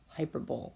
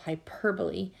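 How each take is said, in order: First: The stress is on the first syllable. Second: The stress is on the second syllable. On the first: The speaker calls it wrong. "not hyperbole" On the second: The speaker calls it right. "Please put the accent on the second syllable"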